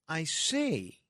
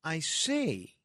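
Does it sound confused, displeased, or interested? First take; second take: confused; confused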